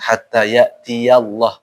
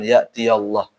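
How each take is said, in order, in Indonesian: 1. Bunyi ya diucapkan dengan jelas. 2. Bunyi ya kabur atau hilang. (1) "ingat hatta ya'tiyallah" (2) "bukan ya'tiyallah"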